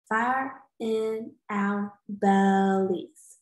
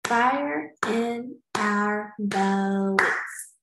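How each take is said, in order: First: Slow, one beat each; clapped syllables. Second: Very slow, beat by beat; clapped syllables. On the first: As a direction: clap Fire in our bellies again. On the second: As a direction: clap out Fire in our bellies. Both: Shown as a demonstration. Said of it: "let's clap the syllables".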